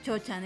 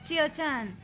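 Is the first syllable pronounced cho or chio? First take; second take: cho; chio. First: The first syllable sounds like cho, without i. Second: The first syllable sounds like chio, with i. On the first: The speaker calls it wrong. "no le digas Chio-chan, eso suena feo" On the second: The speaker calls it right. "Es Chio-chan"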